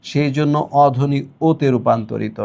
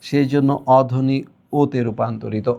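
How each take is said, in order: Both takes have the same delivery.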